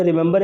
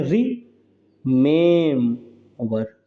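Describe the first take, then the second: First: Said in the usual way. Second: "remember" very slowly in three parts, middle syllable stretched; syllable stress demo. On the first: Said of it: "अब हम यहाँ पे remember". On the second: Shown as a demonstration. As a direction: draw out the "में" in "remember", pausing between syllables. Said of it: "stressed और unstressed".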